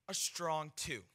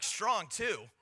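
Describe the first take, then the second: First: Said in the usual way. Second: Acted disbelief. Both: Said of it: "I'm like".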